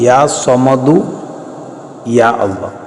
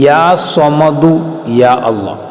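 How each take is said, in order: The two takes are said the same way.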